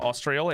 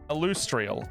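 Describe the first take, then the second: First: The name begins with an 'aws' sound. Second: The name begins with an 'ill' sound. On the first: The speaker calls it wrong. "I was saying it wrong. It's not Austrial" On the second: The speaker calls it right. "it's Illustrial"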